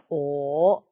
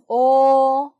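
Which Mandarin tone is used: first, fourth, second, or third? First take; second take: third; first. First: The pitch dips low. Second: The pitch stays high and level. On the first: "삼성 낮게" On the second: "일성"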